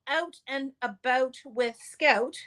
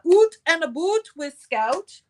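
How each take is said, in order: First: It is said in the speaker's plain accent. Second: It is said in an exaggerated Canadian accent.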